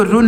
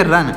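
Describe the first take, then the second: First: 'रुन' with an oo vowel; wrong vowel demo. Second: 'रन' with a short uh vowel; correct vowel demo. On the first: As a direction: say 'रुन' with u as in put. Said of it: "इसको रुन नहीं पढ़ेंगे". ('रुन' में उ की मात्रा का उच्चारण) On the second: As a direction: say 'रन' with u as in cup. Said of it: "क्या पढ़ेंगे". ('रन' बिना मात्रा, छोटे अ के साथ) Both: Shown as a demonstration.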